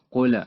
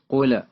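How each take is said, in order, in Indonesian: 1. Huruf l terakhir berakhir dengan pantulan bergema. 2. Huruf l terakhir berakhir dengan pantulan bergema.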